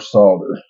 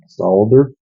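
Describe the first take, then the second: First: The L sound is left out. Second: The L sound is clearly pronounced. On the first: "or not" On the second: "you use the L"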